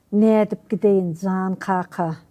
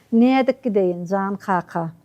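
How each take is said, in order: No difference in how they are said.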